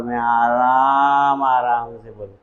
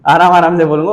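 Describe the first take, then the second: First: Very slow, low, dragged-out words; slow motion. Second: Quick and louder, laughing it off; laughing, back to normal. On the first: Teacher mocking slow motion for students. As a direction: stretch each word like a slowed-down video. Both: Shown as a demonstration. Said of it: "वो slow motion वाला button दबा दो".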